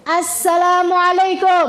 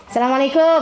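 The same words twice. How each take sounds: First: Slow drawn greeting. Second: Clipped quick greeting. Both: Shown as a demonstration. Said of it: "Perhatikan, jawaban itu akan mirip sama pertanyaan".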